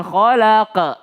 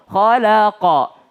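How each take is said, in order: First: KHALAQA ending in an unrounded "ka" or "ke"; wrong ending. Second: KHALAQA with a bounced, rounded "qo" at the end. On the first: Teacher showing wrong khalaqa, unrounded ending. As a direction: let the last QA of KHALAQA go to a schwa. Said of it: "bukan khalaqa". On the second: Teacher modelling the end of khalaqa, rounded o. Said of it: "ujungnya adalah o". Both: Shown as a demonstration.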